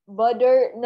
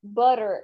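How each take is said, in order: First: "Butter" said as "budder"; wrong D sound. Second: "butter" as "burr-er"; correct R sound. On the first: Teacher shows the sound it is not, D. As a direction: put a clear D in "Butter". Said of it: "double टी की sound डा की नहीं होती". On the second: Teacher corrects with no, tapped R. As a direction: tap an R in "butter", lower pitch. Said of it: "double टी की sound रा की होती है". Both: Shown as a demonstration.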